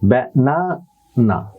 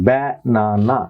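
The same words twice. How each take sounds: First: The stress is on the middle syllable. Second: The stress is on the first syllable. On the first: The speaker calls it right. "মাঝখানে কিন্তু এটা stress রয়েছে" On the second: The speaker calls it wrong. "আপনি যদি শুরুতে এটার stress দেন"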